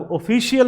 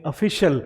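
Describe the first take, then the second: First: ऑफिशियल as "o-fee-shi-yal", pitched up; higher voice, every vowel of ऑफिशियल sounded; wrong pronunciation. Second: ऑफिशियल as "uh-FI-shul"; correct pronunciation. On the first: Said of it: "ऑफिशियल नहीं बोलेंगे". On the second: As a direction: say ऑफिशियल with a short "shul" ending. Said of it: "हम बोलेंगे". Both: Shown as a demonstration.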